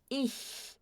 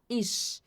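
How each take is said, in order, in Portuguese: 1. O ch é um chiado palatal suave. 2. O ch é um chiado 'sh'. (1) "A gente fala ich. Ich, ó, não tem chiado" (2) "a gente não pronuncia com chiado. A gente não fala"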